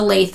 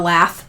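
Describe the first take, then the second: First: The word rhymes with 'bathe', with a long vowel. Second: The word rhymes with 'bath', with a short vowel. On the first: The speaker calls it right. "It's a lathe" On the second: The speaker calls it wrong. "not a lath"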